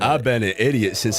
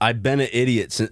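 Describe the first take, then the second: First: It is read in a put-on character voice. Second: It is read in the reader's normal voice.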